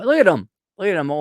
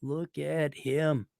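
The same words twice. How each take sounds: First: Loud look at him. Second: Much softer, very slow and tender; soft slow cooing. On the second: Admiring the little boy's photo, soft and slow. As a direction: melt over the photo, slowly. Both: Real, not acted. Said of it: "there's a picture of you".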